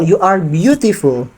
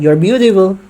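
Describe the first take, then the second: First: The word beautiful is said louder and emphasized. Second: The word beautiful is said flatly without emphasis. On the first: The speaker's meaning is made clear. The speaker calls it right. "tapi cuma" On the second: The listener may not catch the meaning. The speaker calls it wrong.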